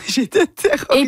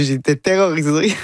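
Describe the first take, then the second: First: A laughing high-pitched repeat of terrorisée, going much higher; Quebec author laughing at her own fright, pitched up. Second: Said in the usual way. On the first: Real, not acted.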